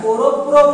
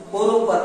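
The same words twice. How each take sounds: First: "प्रो" as one joined syllable, said firmly and louder; teacher's model reading, o kept at the end of "प्रो"; blended "प्रो". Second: "पोरो पर" with no o after the r in "पर"; the wrong reading, "पर" left unblended. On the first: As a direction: punch out "प्रो" with p and ro fused. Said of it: "पोरो प्रो पढ़ना है". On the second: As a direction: say "पर" separately, ending on a bare r. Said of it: "पोरो पर नहीं पढ़ना है". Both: Shown as a demonstration.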